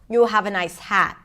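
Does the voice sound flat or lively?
flat. The voice is flat and harsh in pitch. The remark may be taken as an insult. "going really flat, leaving it up hanging, and my voice was a little harsh"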